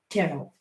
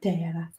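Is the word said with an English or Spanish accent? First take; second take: English; Spanish. First: The word is said with an English accent. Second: The word is said with a Spanish accent.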